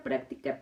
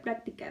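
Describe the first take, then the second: First: Práctica whispered softly, a voiceless echo. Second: Práctica said softer and lower, fading away; soft low echo. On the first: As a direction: breathe práctica out, no voice. (práctica susurrado como eco) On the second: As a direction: let práctica trail off softly. (práctica más suave y grave, apagándose) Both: Shown as a demonstration. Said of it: "pura práctica".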